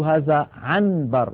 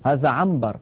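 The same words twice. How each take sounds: First: The n before b is pronounced clearly as n. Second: The n before b is pronounced as m. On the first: The speaker calls it wrong. "لا ينطق النون صريحة هكذا" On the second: The speaker calls it right. "يقول هذا عنبر"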